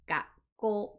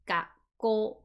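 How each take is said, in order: First: The word has a short pause in the middle. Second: The same.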